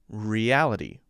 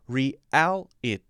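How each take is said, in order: First: The T is said as a light D. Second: The T is said as a clear T. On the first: The speaker calls it right. "So that sounds much more natural" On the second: The speaker calls it wrong. "which is sounds very unnatural to me"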